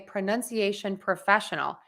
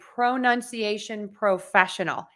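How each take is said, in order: First: The first syllables have a reduced schwa vowel. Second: The first syllables have a full, clear vowel. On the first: These words are not the focus of the sentence. "if I'm using these words in connected speech and I'm not stressing them" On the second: These words are the focus of the sentence. "That's really overpronouncing and highlighting those words"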